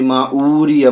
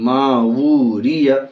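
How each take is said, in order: First: The middle is a plain vowel without a 'w'. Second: The middle has a clear 'w' consonant sound. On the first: The speaker calls it wrong. "इसको भी यही गलती होती है" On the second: The speaker calls it right. "यहाँ भी मावूरिया वाव के साथ"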